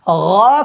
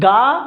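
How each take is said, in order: First: It is a throaty gh sound. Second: It is a hard g sound. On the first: The speaker calls it right. "गा को गा पढ़ते हैं" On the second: The speaker calls it wrong. "ये गाफ की अदायगी है"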